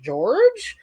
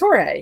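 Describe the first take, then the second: First: It is said the English way, like George. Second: It is said the Spanish way, like Jorge. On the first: This is how an outsider reading the spelling would say it. "If you're from the Midwest, you're like" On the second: This is how locals actually say the name. "but if you come down here, it's"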